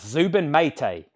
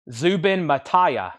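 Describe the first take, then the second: First: Zubin Maytay with two syllables, MAY-tay; corrected pronunciation. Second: Zubin Mataya said as Ma-TIE-ya, three syllables, slowly; guessing at Zubin Mataya, stretching out "Mataya"; first wrong try at the name. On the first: Shown as a demonstration. Corrected by a viewer in chat, host repeats the name confidently. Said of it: "he was helping me pronounce this". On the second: Real, not acted. Host guesses a conductor's name on the livestream, slow and unsure. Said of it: "I think I just butchered that".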